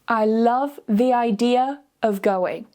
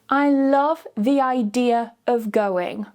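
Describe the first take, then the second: The two takes are said the same way.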